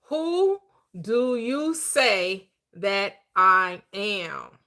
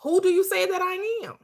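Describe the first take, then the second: First: Very slow, deliberate reading of "Who do you say that I am?"; slow scripture reading. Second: Higher, pressing on "do" in "Who do you say that I am?"; emphatic question. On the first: Retold or imitated. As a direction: draw out the verse word by word. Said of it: "I go back to the script". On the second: Shown as a demonstration. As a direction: lift and lean on "do" to challenge the listener. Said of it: "That's the identity occupancy".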